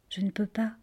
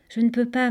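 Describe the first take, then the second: First: Soft, whispered refusal; gentle murmur. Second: Gently voiced refusal; gentle murmur. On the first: Ariane leaves her little sister behind, whispering gently. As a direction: let it fall to a gentle whisper. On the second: Ariane detaches her little sister's arms, gently murmuring. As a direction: refuse tenderly, still voiced. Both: A narrator's reading. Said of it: "et murmura doucement".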